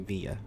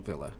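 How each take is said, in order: First: It is said in a South American way. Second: It is said like the start of 'village'. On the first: The speaker calls it wrong. "the South American pronouncing would be Villa" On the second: The speaker calls it right. "like a village"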